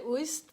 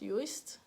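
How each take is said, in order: First: The word is said in a non-English way. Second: The word is said in the English way. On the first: "I want to say Uist" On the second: "in English it should probably be pronounced Uist"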